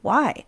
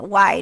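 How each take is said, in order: First: The question sounds sincere and curious. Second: The question sounds mocking and condescending. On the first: The asker really wants to know the answer. The speaker calls it right. "I'm genuinely asking you that question" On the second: The asker doubts the listener's answer. The speaker calls it wrong. "that's not like a condescending, like, why?"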